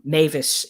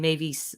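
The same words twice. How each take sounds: First: The name is said with an English pronunciation. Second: The name is said with a French pronunciation. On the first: "in English English pronunciation" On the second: "a more French way of saying it"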